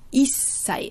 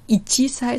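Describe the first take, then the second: First: The chi drops and the s is doubled. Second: The chi sound is fully pronounced before sei. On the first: The speaker calls it right. "sondern is sei" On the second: The speaker calls it wrong. "es ist nicht ichi sei"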